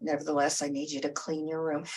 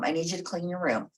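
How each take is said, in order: First: Calm broken record. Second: Said in the usual way. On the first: Retold or imitated. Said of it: "become a broken record". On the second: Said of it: "you say".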